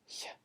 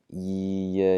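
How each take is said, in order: First: The y sound is voiceless, with no vocal vibration. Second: The y sound is voiced, with vocal folds vibrating. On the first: "it's going to be silent down there. So it's just going to be yeah" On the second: "instead of yeah, yeah, yeah, where you can feel your throat vibrating"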